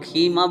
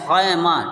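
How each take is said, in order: First: The first vowel is a long 'ee' sound. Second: The first vowel is an 'ai' sound. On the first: The speaker calls it wrong. "कुछ लोग खीमा बोलते हैं" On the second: The speaker calls it right. "बल्कि ये है खैमा"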